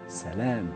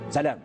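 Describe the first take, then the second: First: The word is said gently, without firmness. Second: The word is said in a firm, decided way.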